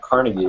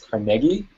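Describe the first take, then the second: First: It is said the non-local, outsider way. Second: It is said the local Pittsburgh way. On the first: The speaker calls it wrong. "and not Carnegie" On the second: The speaker calls it right. "when you live in Pittsburgh, it's Carnegie"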